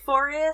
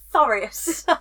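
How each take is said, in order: First: The word begins with an f sound. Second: The word begins with a th sound. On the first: The speaker calls it wrong. "my TH is an F sound" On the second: The speaker calls it right. "it's a th sound"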